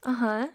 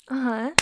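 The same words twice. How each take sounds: The two takes are said the same way.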